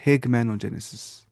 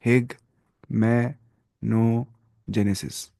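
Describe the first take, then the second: First: Slow repeat. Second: ہیگمینوجینسس said very slowly, syllable by syllable; drawn-out syllables. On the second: Teacher drawing out ہیگمینوجینسس for students to copy. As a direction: spell out ہیگمینوجینسس slowly for the class. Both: Shown as a demonstration. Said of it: "کیا بولتے ہیں؟".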